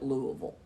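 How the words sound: It is said the way Kentucky locals say it. The speaker lives in the state. "People who live in Kentucky call it Louisville"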